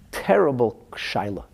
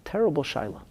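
First: "terrible shaila" drawn out slowly with weight on "terrible"; a grave, slowed first take of "terrible shaila"; slow weighty stress. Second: "terrible shaila" repeated higher and softer with "terrible" lifted; a lifted, hushed second take of "terrible shaila"; higher, softer echo. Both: Shown as a demonstration.

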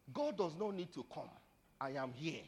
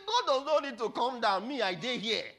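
First: Said in the usual way. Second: High, loud defiant boast; booming acted proclamation; forceful declaration. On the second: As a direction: thunder it at the challenger. Papa's reply repeated at full voice.

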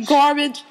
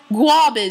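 First: Said in the usual way. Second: "Garbage" as "gwah-bidge", Jersey style; exaggerated New Jersey pronunciation; Jersey accent. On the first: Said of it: "Can you say garbage?". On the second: Shown as a demonstration. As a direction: lean hard into a Jersey "Garbage". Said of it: "with your best Jersey accent".

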